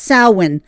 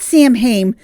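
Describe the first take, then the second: First: It is said in its original, non-English pronunciation. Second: It is said the way an English speaker would. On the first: The speaker calls it right. "a pagan holiday that is pronounced Samhain" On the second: The speaker calls it wrong. "like an English speaker would pronounce it"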